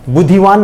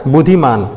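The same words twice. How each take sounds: First: बुद्धिवान said as the rejected wrong form, with -वान; बुद्धिवान spoken plainly as the incorrect ending. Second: बुद्धिमान said as the right answer, with -मान, falling; बुद्धिमान given firmly as the correct form. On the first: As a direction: offer बुद्धिवान as the mistake to avoid. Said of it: "यहाँ बुद्धिवान नहीं होगा". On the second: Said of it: "बुद्धिमान होता है ना". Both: Shown as a demonstration.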